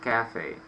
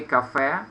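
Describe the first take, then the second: First: "cafe" as CAF-ay, falling after the stress; English "cafe", stressed up front and falling; first-syllable stress. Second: "café" stressed on the last syllable; Russian-style "café", rising onto the final syllable; Russian pronunciation. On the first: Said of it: "accent should be on the first syllable". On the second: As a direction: say "café" as ka-FEH. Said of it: "In Russian we, we say café". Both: Shown as a demonstration.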